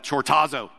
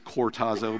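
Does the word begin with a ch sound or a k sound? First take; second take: ch; k. First: The word begins with a ch sound. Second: The word begins with a k sound. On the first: The speaker calls it wrong. "I don't think that's how you pronounce it" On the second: The speaker calls it right. "I think it's cortazo"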